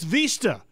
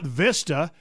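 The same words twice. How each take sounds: First: The word is said with Spanish-style pronunciation. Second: The word is said with English-style pronunciation. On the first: The speaker calls it right. "it's Vista" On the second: The speaker calls it wrong. "in Spanish it's not Vista"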